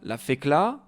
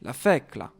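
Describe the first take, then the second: First: The stress falls on the final syllable. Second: The stress falls on the second-to-last syllable. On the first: The speaker calls it wrong. "On ne dit pas" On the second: The speaker calls it right.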